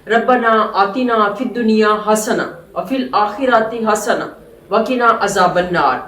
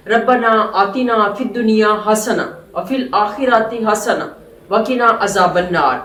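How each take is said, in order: First: It is recited with pauses between phrases. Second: The same.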